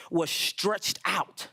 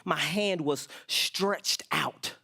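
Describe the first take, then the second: First: Drawn out slow. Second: Slow and drawn out. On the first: Reading psalm slowly. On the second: Repeated psalm line slowly. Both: Acted.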